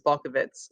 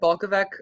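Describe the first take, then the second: First: The name ends with a ts sound. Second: The name ends with a hard k sound. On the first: The speaker calls it right. "the right way, which is Balkovitz" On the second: The speaker calls it wrong. "I said it Balkovec my entire life"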